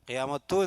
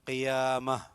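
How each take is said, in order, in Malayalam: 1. ഈ വാക്ക് tu ശബ്ദത്തിലാണ് അവസാനിക്കുന്നത്. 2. ഈ വാക്ക് a ശബ്ദത്തിലാണ് അവസാനിക്കുന്നത്. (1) "എന്ന് പറയാൻ പാടില്ല" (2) "ഹ ഉച്ചാരണം"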